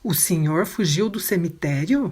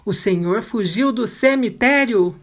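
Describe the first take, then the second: First: It is said at normal volume. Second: It is said louder, almost shouting.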